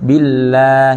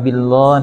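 First: บิลลาห์ with a thin, light L and open aa; thin lam. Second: บิลลอฮ์ with a heavy L and rounded aw vowel; heavy lam. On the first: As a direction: keep the L of บิลลาห์ thin, vowel aa. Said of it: "ให้เสียงบางนะครับ นะ เสียงบางหรือเสียงเล็ก". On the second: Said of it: "อย่าอ่านว่าบิลลอฮ์นะครับ". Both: Shown as a demonstration.

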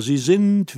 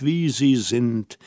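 First: „sind“ hoch und kräftig betont, fallend; Betonung auf sind. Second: „sie“ betont, tiefer und langsam gesprochen; „wie sie sind“ ruhig und gedehnt, Gewicht auf „sie“; Betonung auf sie. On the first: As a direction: das Wort „sind“ deutlich hervorheben. (Hermine betont „sind“ mit fallendem Ton) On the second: (Hermine wiederholt langsam, Gewicht auf „sie“) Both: A narrator's reading.

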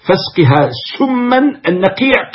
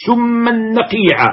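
First: Said in the usual way. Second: سما نقيعا drawn out slowly, سما held long and high; verse chanted slowly; slow recited line. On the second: Shown as a demonstration.

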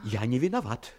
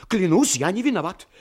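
First: Said in the usual way. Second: Pleading oath. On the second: Acted. Frightened Sinkright pleads innocence to the captain, desperate. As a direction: swear it louder, desperate. Scared man swears innocence.

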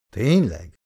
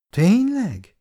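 First: Said in the usual way. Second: Surprised question. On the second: A narrator's reading. Wife asks back in surprise.

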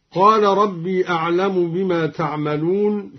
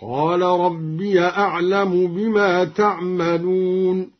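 First: Said in the usual way. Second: "ربي" as rabbiya, in slow chant; opened ya. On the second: Shown as a demonstration. Teacher demonstrating the linked reading, "ربي" chanted as rabbiya. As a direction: recite slowly, linking "ربي" with an a into "أعلم". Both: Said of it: "فتح الياء وصلا هكذا".

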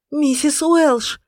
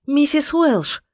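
First: Протяжный громкий высокий крик; кричи, растягивая слова. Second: Громко, высоко, в отчаянии; зови её в отчаянии; отчаянный зов. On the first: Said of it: "кричала Иден". (протяжный крик) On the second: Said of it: "в отчаянии звала она". (отчаянный крик) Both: A narrator's reading.

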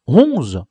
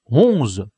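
First: Final count lands, louder, a jolt; counting aloud. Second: Said in the usual way. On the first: Acted. La Crique hits the last sardine count, startled. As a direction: stop on the number with a start. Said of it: "la Crique compta". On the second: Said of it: "répéta-t-il".

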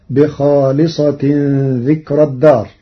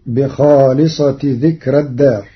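First: بخالصة with tanwīn, bikhāliṣatin; بخالصة ذكرى with nunation; Hafs reading. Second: بخالصة without tanwīn, bikhāliṣati dhikrā; بخالصة as a construct, light rā'; Warsh reading. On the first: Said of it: "قرأ ورش كلمة". (بخالصة بالتنوين) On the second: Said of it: "بدون تنوين". (بخالصة بدون تنوين مع ترقيق الراء) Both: Shown as a demonstration.

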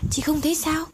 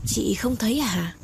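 First: Insistent high question. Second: Said in the usual way. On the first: Acted. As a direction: pitch jumps up, urging her to see it. Mai comforts Tê, repeats question.

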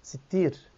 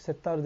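First: "Sittir" with i in both syllables; "Sittir" set out alone, ending in -tir; corrected name form. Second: "Settar" with e, then a long a; "Settar" as the form being corrected; mistaken name form. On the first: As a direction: say "Sittir", doubled t and long final i. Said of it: "Allah'ın Sittir ismi var". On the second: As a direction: say "Settar", ending in -tar. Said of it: "Allah'ın ismi Settar ismi yok". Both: Retold or imitated.

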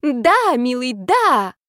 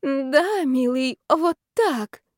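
First: High, loud mock passion; faked ecstatic shouting. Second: High, drawn-out pretend pleasure; faked passionate moan. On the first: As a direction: shout pretend pleasure. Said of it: "заорала я". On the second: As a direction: moan for the eavesdroppers' benefit. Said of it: "похожее на стон страсти". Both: A narrator's reading.

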